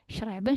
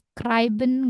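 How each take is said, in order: First: The c is weak, with no k sound. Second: The c is pronounced as a clear k sound. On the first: The speaker calls it right. "C-nya lemah" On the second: The speaker calls it wrong. "Nggak schreiben"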